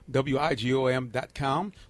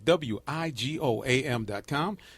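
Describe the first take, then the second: First: It is said at a quick pace. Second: It is said at a slow pace.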